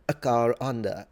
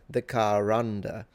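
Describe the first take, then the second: First: A glottal catch separates car from under. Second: An R sound joins car to under. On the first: "sometimes they will just add a glottal stop" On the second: "So you can pronounce it like saying the car"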